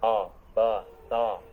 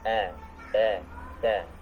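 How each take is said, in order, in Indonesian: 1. Huruf vokalnya terdengar lebih tebal dan lebih berat. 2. Huruf vokalnya terdengar tipis dan ringan. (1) "lebih tebal lagi" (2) "harus tipis"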